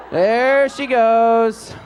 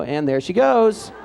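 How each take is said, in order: First: Slow, stretched and louder, like a sportscaster; drawn-out excitement. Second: Said in the usual way. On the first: Real, not acted. Band director calling out Katie on screen, stretched and excited. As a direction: savour the moment she runs past. Commentating the clip.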